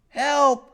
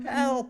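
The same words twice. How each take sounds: First: It is said loudly. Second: It is said quietly.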